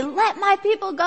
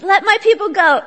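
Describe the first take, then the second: First: Higher, mildly commanding demand; a modest stab at a prophet's command; attempted Charlton Heston. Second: Loud, higher-pitched demand; commanding Moses. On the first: Moses confronting Pharaoh, mildly commanding. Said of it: "I don't have a Charlton Heston voice". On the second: Acted. Moses confronting Pharaoh, loud and commanding. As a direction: proclaim it forcefully, well above talking level. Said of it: "recruits him to confront Pharaoh and say".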